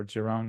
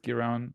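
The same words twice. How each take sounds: First: "Giron" with a soft G, like a J; alternative pronunciation. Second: "Giron" with a hard G, as in "give"; alternative pronunciation. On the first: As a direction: say "Giron" starting "ji", as in "jeep". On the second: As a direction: say "Giron" starting with a hard g sound. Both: Shown as a demonstration. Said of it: "not sure how you pronounce it".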